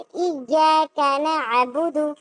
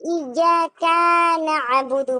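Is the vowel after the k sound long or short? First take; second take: short; long. First: The vowel after the k is short. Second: The vowel after the k is drawn out. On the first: The speaker calls it right. "लिखा है" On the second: The speaker calls it wrong. "काफ में अलिफ जोड़ देना"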